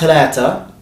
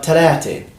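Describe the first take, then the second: First: The word ends in an 'a' vowel. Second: The word ends in an 'e' vowel. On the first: The speaker calls it wrong. "not talata" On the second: The speaker calls it right. "but talate"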